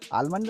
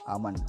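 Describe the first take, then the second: First: The word is said with an L sound. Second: The word is said without an L sound. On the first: The speaker calls it wrong. "आलमंड नहीं है" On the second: The speaker calls it right.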